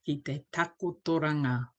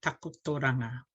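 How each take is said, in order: First: Takotoranga with short crisp vowels; brisk, precise syllables; short and sharp. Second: Takotoranga said with short, sharp vowels; clipped teacher repeat. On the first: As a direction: clip each vowel in takotoranga. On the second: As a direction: snap out takotoranga crisply. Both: Shown as a demonstration. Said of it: "very short and sharp".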